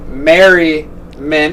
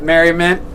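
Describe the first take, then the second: First: "Merriment" stretched very slowly, syllable by syllable; drawn-out name. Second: Said in the usual way. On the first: Shown as a demonstration. Host signing off with the show name, "Merriment" slowly drawn out. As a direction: draw out "Merriment" with a break before the last syllable.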